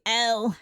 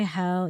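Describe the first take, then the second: First: "L" said as hell without its H; Cockney pronunciation. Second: Said in the usual way. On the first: Shown as a demonstration. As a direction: drop the H, so it comes out "L". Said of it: "you say L". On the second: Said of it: "You don't say hell".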